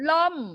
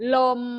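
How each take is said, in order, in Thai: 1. คำว่า ลม ออกเสียงวรรณยุกต์เสียงตก 2. คำว่า ลม ออกเสียงวรรณยุกต์เสียงกลาง (1) "เสียงโทของอักษรต่ำจะเป็นวรรณยุกต์เอก" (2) "เสียงแรกเลยเสียงสามัญ"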